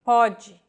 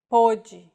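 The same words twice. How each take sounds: First: "Pode" with an open O, PAW-jee. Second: "pode" with a closed O, POH-jee. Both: Shown as a demonstration. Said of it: "written in the same way, but with different meanings".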